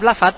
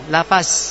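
First: The word ends in an emphatic dh sound. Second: The word ends in a plain z sound. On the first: The speaker calls it right. "Kalau za atau vo, ketika kita ngucap lafad, masih tetap lafad" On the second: The speaker calls it wrong. "Kalau lafaz jadinya za, zai. Zayun, lafaz"

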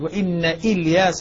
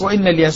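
First: The glottal stop before Ilyas is pronounced. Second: The glottal stop before Ilyas is dropped. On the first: This is the other reciters' reading. "بإثبات الهمزة في الحالتين" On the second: This is one reciter's reading. "بحذف الهمزة في الدرج"

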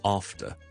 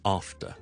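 First: It is said with a British English accent. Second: It is said with a British English accent.

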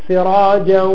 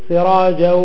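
The two takes are said the same way.

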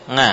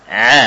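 First: It begins with a nasal ng from the tongue. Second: It comes purely from the throat, no nasal. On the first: The speaker calls it wrong. "Lidah bagian belakang ikut nempel ke langit-langit" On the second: The speaker calls it right. "ain bukan huruf lidah namun murni dari tenggorokan"

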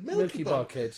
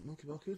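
First: The phrase is shouted loudly. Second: The phrase is said softly and casually. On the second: "I didn't say it like, oh"

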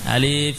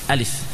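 First: The vowels in the word are drawn out long. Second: The vowels in the word are kept short. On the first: The speaker calls it wrong. "sebagian masih memanjangkan. Alif, ya jangan" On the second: The speaker calls it right. "Pendek saja"

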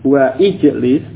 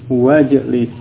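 First: The vowel starting ijlis is pronounced separately. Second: The vowel is dropped and the words run together. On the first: The speaker calls it wrong. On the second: The speaker calls it right.

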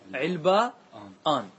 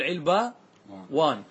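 First: A glottal stop comes before the ending. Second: A w sound comes before the ending. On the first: "ويجوز بالهمز" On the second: "يجوز بالواو، تقول"

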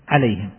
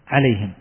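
Both takes have the same delivery.

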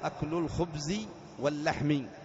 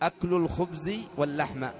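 First: The last word ends with an 'i' vowel. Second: The last word ends with an 'a' vowel. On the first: The noun is joined to the form, as genitive. "رعيت اللفظ" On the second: The noun is joined to the meaning, as an object. "إذا رعيت المعنى"

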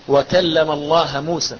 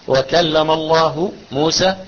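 First: The word Allah ends with an a vowel. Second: The word Allah ends with a u vowel. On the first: Moses spoke to God. The speaker calls it wrong. "انصب لفظ الجلال" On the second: God spoke to Moses. The speaker calls it right. "مش كده الآية؟"

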